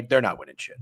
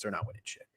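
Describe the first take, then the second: First: Said in the usual way. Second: Whisper. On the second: Real, not acted.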